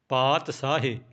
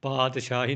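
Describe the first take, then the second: First: The middle consonant is pronounced as s. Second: The middle consonant is pronounced as sh. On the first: The speaker calls it right. "ਬਿੰਦੀ ਤੋਂ ਬਿਨਾਂ ਸੱਸਾ ਬੋਲਣਾ ਹੈ" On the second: The speaker calls it wrong. "ਪਾਤਸ਼ਾਹੀ ਨਹੀਂ ਬੋਲਣਾ"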